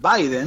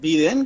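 First: The name is said with English-style vowels. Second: The name is said with Spanish-style vowels. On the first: The name keeps its original form. "su pronunciación original" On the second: The name is adapted to the local language. "castellanizándolo"

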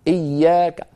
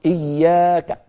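Both takes have the same delivery.

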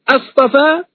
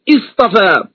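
First: The word is read in its question form. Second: The word is read in its statement form. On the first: It asks whether something was chosen. "من قرأهما بالاستفهام" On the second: It states that something was chosen. "من قرأهما بالإخبار"

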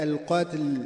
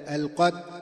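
First: The consonant gets an added echoing bounce. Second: The L sound is dropped and not heard. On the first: "أو أن تقلقل هكذا" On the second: "أو تحذف اللام في الصوت هكذا"

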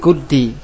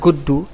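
First: The word ends in an i vowel. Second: The word ends in a u vowel. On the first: "Kita baca lagi guddi" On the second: "Hurikat fidomi juga lil tilqa sakinain"

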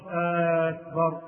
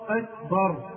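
First: The first vowel is lengthened. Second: The first vowel is short. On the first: It sounds like a question. The speaker calls it wrong. "مش أكبر" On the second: It is a plain statement of greatness. The speaker calls it right. "بل ينبغي للإنسان أن يقول"

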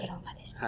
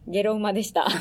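First: It is said in a small, quiet voice. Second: It is said at a normal, fuller volume.

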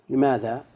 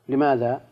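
No difference in how they are said.

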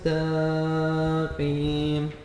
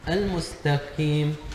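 First: The vowel after the ta is drawn out long. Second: The qaf is pronounced light, not heavy. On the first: "مد الفتح على التاء حتى يخيل للمستمع أن بعد التاء ألفا" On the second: "ترقيق القاف"

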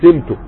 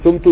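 First: The first vowel is a short i. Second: The first vowel is a short u. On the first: Someone else set the price on him. The speaker calls it right. "يبقى هتكسر تقول سمته" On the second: He himself did the pricing. The speaker calls it wrong. "ولا تضم لإيهامه أنه فاعل الثوم"

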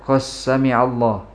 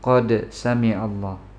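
First: The d is merged into the following s. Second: The d is pronounced clearly before the s. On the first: The speaker calls it wrong. "Jangan dibaca qas sami' Allah" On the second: The speaker calls it right. "tapi qad sami' Allah"

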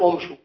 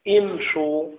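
First: The word begins with a 'u' vowel. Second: The word begins with an 'i' vowel. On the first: The speaker calls it wrong. "لا نقول امشوا" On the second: The speaker calls it right. "نقول امشوا، الأصل هو الكسر"

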